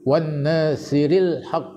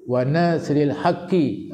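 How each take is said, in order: First: The phrase ends on a consonant, without a vowel. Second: The phrase ends with a short 'i' vowel. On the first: The text has a doubling mark. "kalau ada sabdu, wan nasril haqq bacanya" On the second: The text has no doubling mark. "Kalau tak ada sabdu, wa nasril haqqi"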